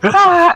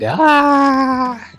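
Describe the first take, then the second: First: It is shouted loudly with a cracking voice. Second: It is said softer with a steady voice. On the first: The speaker calls it wrong. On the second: The speaker calls it right.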